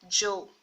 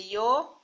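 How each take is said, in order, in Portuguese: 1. O primeiro som é um 'dj' duro. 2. O primeiro som é suave. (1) "ou como D J também" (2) "tem um som suave"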